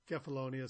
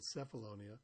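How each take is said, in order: First: Kefalonia with a hard K sound at the start; "Kefalonia" opening on K, not S. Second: Cephalonia with an S sound at the start; "Cephalonia" opening on S, not K; soft C. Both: Shown as a demonstration. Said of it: "sometimes called Cephalonia".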